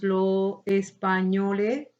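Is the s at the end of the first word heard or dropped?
dropped. The final s of the first word is dropped. "desaparición o aspiración de la S"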